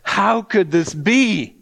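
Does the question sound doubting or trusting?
trusting. It sounds trusting and wondering.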